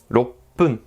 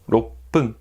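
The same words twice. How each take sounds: No difference in how they are said.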